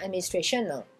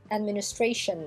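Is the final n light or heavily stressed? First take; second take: heavy; light. First: The final n is heavily overstressed. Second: The final n is sounded lightly. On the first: The speaker calls it wrong. "n'insistez bien sûr pas sur le N, c'est pas la peine de dire administration" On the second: The speaker calls it right. "Or les anglophones prononcent la dernière lettre"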